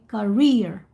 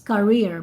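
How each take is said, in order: First: It does not sound like carrier. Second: It sounds like the word carrier. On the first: The speaker calls it right. "should be career" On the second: The speaker calls it wrong. "this is what I always heard from you guys"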